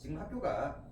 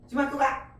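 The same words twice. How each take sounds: First: It is said with a plain answering tune. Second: It is said with a commanding tune. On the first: The speaker answers that they are going to school. "그냥 얘기 대답을 해주는 거고" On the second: The speaker orders someone to go to school. "명령이죠"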